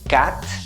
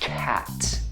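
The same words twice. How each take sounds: First: The vowel is made high in the mouth. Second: The vowel is made lower down, deeper. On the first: The speaker calls it wrong. "pronouncing the A in your mouth" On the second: The speaker calls it right. "take it down"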